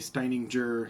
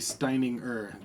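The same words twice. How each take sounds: First: The G sound in the name is fully pronounced. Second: The G sound in the name is not pronounced. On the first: The speaker calls it wrong. "people say Steininger" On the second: The speaker calls it right. "it's actually Steininger. The G is not really said"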